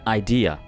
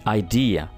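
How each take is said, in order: The two takes are said the same way.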